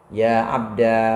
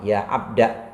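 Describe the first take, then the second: First: The word ends in a long a vowel. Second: The word ends in a short a vowel. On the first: "menetapkan alif sebagai ganti ya mutakalim" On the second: "tapi alif dibuang"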